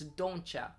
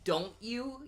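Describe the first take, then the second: First: The T is dropped and 'you' becomes 'ya'. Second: The T is pronounced and 'you' is full. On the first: The speaker calls it right. "I don't say the T. ... You have to say it like that" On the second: The speaker calls it wrong. "If you say don't you, you're you're you're not a real person"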